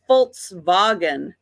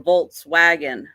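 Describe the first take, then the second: First: It begins with an F sound, then V. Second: It begins with a V sound, then W. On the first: The speaker calls it right. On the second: The speaker calls it wrong.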